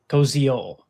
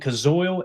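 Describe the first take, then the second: First: The name is said like 'ko-zee-ol'. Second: The name is said like 'ka-zoil'. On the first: The speaker calls it right. "the pronunciation online that I looked up is Koziol" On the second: The speaker calls it wrong. "we've been saying Kazoil"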